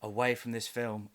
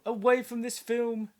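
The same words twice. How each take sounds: First: Said in the usual way. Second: High mystical voice. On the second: Shown as a demonstration. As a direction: chant it high and eerie. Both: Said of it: "Ooh, let me try".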